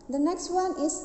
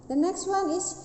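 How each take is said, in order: Both takes have the same delivery.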